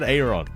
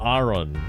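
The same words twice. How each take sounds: First: The name does not sound like 'iron'. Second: The name sounds closer to 'iron'. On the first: This is how the speaker has always said it. "I've always said Aaron" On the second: This is the other way the speaker heard it said. "Not Aaron. Although I guess that's closer to iron"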